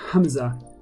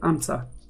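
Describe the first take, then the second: First: Said the Arabic way, with the H sounded. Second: Said the Italian way, without the H. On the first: "if you say it in, in Arabic" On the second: "or English or Italian way"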